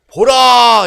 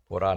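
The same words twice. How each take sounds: First: It is said grandly, with dramatic flair. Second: It is said flatly, without flair.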